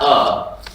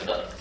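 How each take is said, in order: First: The vowel is long and strongly voiced. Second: The vowel is very short and soft. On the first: The speaker calls it wrong. "it's not uh" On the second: The speaker calls it right. "It's just very short, very soft"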